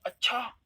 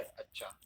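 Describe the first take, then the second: First: High, rising, astonished अच्छा; surprised अच्छा. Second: Low, soft, brief acknowledgement; accepting अच्छा. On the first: Friend phones with a startling exam result, high surprised reaction. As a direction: jump up in pitch as if amazed. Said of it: "आपको आश्चर्य होता है". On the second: Listener accepting that the work is done, low matter-of-fact अच्छा. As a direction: quietly accept with a dropped अच्छा. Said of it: "जैसे स्वीकृति में". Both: Shown as a demonstration.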